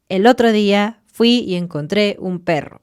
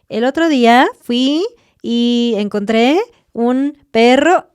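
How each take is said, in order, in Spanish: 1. Baja al final, como una afirmación. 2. Sube al final, como una pregunta. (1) "Dilo seguro" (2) "hablar de esta forma como, ... no suena bien"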